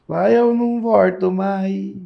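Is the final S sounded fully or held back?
held back. The final S is held back, caipira style.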